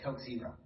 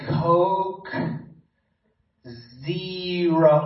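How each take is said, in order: First: It is said at normal speed. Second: It is said slowly and deliberately.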